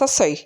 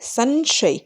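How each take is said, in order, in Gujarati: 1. પ્રથમ અક્ષરમાં અનુનાસિક ધ્વનિ નથી. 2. પ્રથમ અક્ષરમાં અનુનાસિક ધ્વનિ છે. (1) "જો એની ઉપર જે અનુસ્વર ન હોય" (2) "અનુસ્વાર છે એટલે સંશય"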